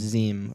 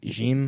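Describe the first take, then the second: First: The word begins with a Z sound. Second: The word begins with a J sound. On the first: The speaker calls it right. "it's Zim, I think" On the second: The speaker calls it wrong. "We were pronouncing it Jim"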